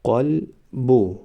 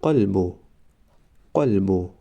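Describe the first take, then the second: First: قلبو stretched very slowly, syllable by syllable; drawn-out demo. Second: Said in the usual way. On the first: Shown as a demonstration. Teacher modelling the word for students, very slow. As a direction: draw out قلبو slowly for the class. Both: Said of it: "ما باید همان حرف را فقط آوازش را تلفظ کنیم".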